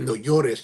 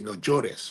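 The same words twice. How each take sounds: First: The ll sounds like an English y. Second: The ll sounds like an English j.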